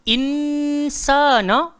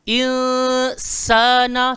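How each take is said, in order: First: The n sound is pronounced fully and clearly. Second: The n sound is hidden in a nasal hum. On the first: The speaker calls it wrong. "bunyi nun tu one hundred percent berbunyi" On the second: The speaker calls it right. "Lidah kita kena statik"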